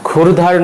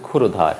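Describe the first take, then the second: First: ক্ষুরধার with r running into dh; no linking vowel. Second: ক্ষুরধার with "o" after r; ক্ষুরধার in three syllables; linking vowel sounded. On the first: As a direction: say ক্ষুরধার as "khur-dhar". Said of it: "নয়". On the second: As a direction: say ক্ষুরধার as "khu-ro-dhar". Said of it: "উচ্চারণ হবে". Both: Shown as a demonstration.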